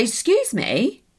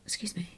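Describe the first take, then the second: First: Indignant retort. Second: Whispered excuse me. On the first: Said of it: "So I was like". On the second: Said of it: "you feel like looking at them being like". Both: Retold or imitated.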